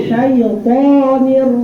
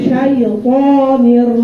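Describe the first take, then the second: The two takes are said the same way.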